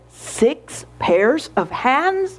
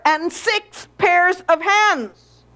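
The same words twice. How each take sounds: First: Slow, incredulous echo; disbelieving question. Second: HANDS drawn out with a falling tune; slow, high finish landing on "hands"; emphatic list ending. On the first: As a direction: question "Six pairs of hands?" slowly, word by word. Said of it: "shook her head slowly and said". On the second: Lord lists the mother's features. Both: A narrator's reading.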